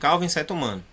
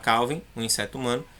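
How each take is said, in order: First: It runs on with no pause after Calvin. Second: There is a brief pause after Calvin.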